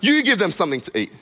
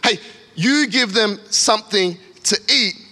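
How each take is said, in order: First: It sounds frustrated and rude. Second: It sounds warm and encouraging.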